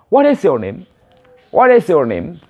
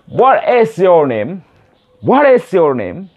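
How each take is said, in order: First: WHAT IS YOUR NAME run together quickly; quick connected version. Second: Slow WHAT IS YOUR NAME, pitched up; slow careful version. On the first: Teacher shows how the question sounds said fast, quick and linked. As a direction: link the words into one smooth question. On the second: English teacher drills beginners on the question, slowly and clearly. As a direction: stretch each word out for learners. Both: Shown as a demonstration. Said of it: "kalau secara cepat nanti akan dibilang".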